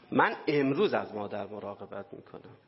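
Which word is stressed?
امروز. The stress falls on the word for today.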